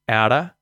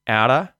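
Both takes have the same delivery.

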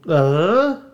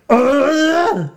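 First: It is a plain, unforced grunt. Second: It is a deep, guttural grunt.

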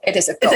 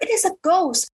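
First: It is said in a calm, mellow tone. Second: It is said with strong fearful emotion. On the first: The speaker calls it wrong. "you read it in a mellow tone" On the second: The speaker calls it right. "give some emotion to it"

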